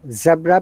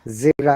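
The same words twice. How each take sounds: First: It is said in a British accent. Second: It is said in an American accent.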